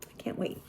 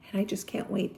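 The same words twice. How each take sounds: First: Breathy excited whisper of anticipation; whispered to herself, giddy. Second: Said in the usual way. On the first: Real, not acted. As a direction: hush it like a secret you can't keep. Repeats line in hushed voice.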